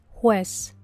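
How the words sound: The word ends in a clear s sound. "la traducción en español estándar"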